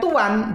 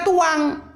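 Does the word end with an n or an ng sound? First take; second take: n; ng. First: The word ends with an n sound. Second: The word ends with an ng sound. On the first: "kalau bilang tuan" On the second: "jadinya tuang"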